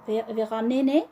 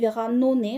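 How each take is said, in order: First: The final syllable has an e vowel. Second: The final syllable has an o vowel. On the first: "ils ont mis ne" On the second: "ça peut être à mon avis Veranone aussi"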